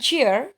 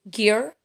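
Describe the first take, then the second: First: The word begins with a soft J sound. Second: The word begins with a hard G sound. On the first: The speaker calls it wrong. "kenapa tidak dipronounce ce bukan cheer ya?" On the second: The speaker calls it right. "Seperti kata gear"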